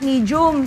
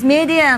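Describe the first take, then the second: First: The word is said without a smile. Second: The word is said with a smile. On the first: The speaker calls it wrong. "It's not medium" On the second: The speaker calls it right. "It's medium with a smile"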